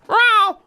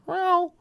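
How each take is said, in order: First: The meow is said loudly. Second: The meow is said quietly.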